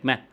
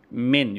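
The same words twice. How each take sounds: First: ما as an open syllable, final n dropped; child's ما, ending on the vowel; nasal ending removed. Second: Said in the usual way. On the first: Shown as a demonstration. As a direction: say ما with no closing n. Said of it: "يشيل الغنة". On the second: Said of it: "من يقول لك".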